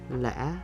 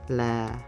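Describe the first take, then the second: First: The pitch dips and changes more than once. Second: The pitch is low on the syllable. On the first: "change your pitch more than one time because it's the mid-low dropping pitch" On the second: "This tone gives a low pitch"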